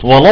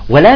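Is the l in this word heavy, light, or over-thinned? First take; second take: heavy; over-thinned. First: The l is heavy and dark. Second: The l is exaggeratedly thin, vowel leaning toward e. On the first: "ولا فخم اللام" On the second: "نبالغ في ترقيقها حتى تصير يعني شبه ممالي"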